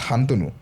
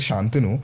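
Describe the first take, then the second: First: The name begins with an h sound. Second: The name begins with an sh sound. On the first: The speaker calls it right. "it's actually in Assamese. My name is Hantanu" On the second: The speaker calls it wrong. "most of the time when you say Shantanu"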